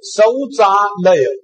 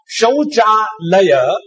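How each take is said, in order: First: The word begins with an 's' sound. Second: The word begins with a 'sh' sound. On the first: In Marathi it sounds like the wife's death. The speaker calls it wrong. "it was written Sauchalaya" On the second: It means toilets. The speaker calls it right. "Instead of Shauchalaya"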